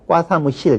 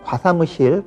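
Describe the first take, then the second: First: The first consonant is tense. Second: The first consonant is plain. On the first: The speaker calls it wrong. "불필요하게 된소리로 발음하는 경우들" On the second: The speaker calls it right. "이때는 과사무실, 과대표 이렇게 얘기를 해야 되겠고요"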